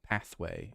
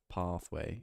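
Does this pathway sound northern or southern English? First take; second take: northern; southern. First: It is said in a northern English accent. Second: It is said in a southern English accent. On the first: "all I know about the north is that I think you say, um, like pathway" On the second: "instead of"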